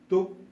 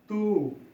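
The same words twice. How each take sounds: First: The vowel is said short. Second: The vowel is said long. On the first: "the pronunciation is shortened" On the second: "if there are two uh, vowels, then the pronunciation is lengthened"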